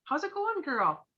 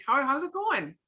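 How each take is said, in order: First: High, bright, sing-song greeting; light surface greeting to a friend; breezy hello. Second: A caring pause-and-ask greeting; concerned check-in. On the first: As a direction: toss off a quick chipper hello. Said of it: "you just like". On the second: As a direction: lean in and really ask. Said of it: "you give 'em that". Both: Shown as a demonstration.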